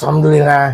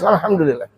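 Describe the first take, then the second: First: It sounds grudging and reluctant. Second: It sounds sincere and heartfelt.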